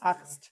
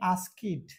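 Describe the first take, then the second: First: The ending is a short 't' sound. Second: The ending is an extra 'id' syllable. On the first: The speaker calls it right. "হবে কি আস্কড" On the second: The speaker calls it wrong. "আমরা অনেকজন বলে আস্কিড"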